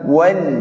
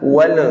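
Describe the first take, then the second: First: The final L is released plainly without bounce. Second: The final L is bounced with an echoing release. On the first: The speaker calls it right. "lepas saja. Tinggal dibaca wal" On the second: The speaker calls it wrong. "memantulkan bacaan sehingga terbaca wal"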